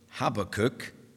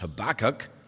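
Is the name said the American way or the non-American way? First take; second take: non-American; American. First: The name is said the non-American way. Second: The name is said the American way.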